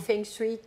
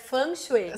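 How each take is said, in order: First: It is said the usual Brazilian Portuguese way. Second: It is said closer to the Chinese original. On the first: This is how people commonly say it. The speaker calls it wrong. "como a gente fala" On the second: This is the pronunciation the speaker learned as correct. The speaker calls it right. "pronúncia correta eu aprendi que é"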